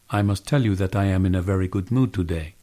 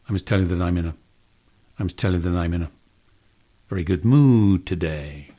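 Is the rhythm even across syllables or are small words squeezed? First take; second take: even; squeezed. First: Every syllable takes about the same amount of time. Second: Small words are squeezed; stressed words are drawn out. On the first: "many languages are syllable-timed" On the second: "a really dramatic example of a stress-timed way of speaking"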